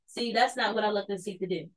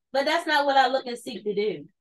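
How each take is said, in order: First: Much softer, near under the breath; soft repeat. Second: Said in the usual way. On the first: Shown as a demonstration. Streamer restates his point to chat, much softer. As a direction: drop the voice on the repeat.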